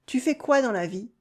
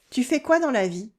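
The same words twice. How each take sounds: The two takes are said the same way.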